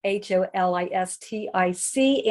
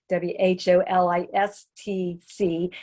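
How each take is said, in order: First: "H O L I S T I C" spelled out one letter at a time, ending on a rise. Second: "W H O L I S T C" spelled out letter by letter, starting on W, ending on a fall. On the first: Speaker spells holistic for the congregation, letter by letter. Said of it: "much more holistic, H O L I S T I C". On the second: Speaker spells the other wholistic for the congregation, letter by letter. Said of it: "and holistic, W H O L I S T C". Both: Shown as a demonstration.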